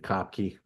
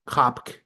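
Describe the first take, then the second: First: The name ends with a sounded final vowel. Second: The name ends on a consonant, no final vowel. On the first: The speaker calls it wrong. "some of us will say Kopke" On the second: The speaker calls it right. "I think you pronounce it Kopk"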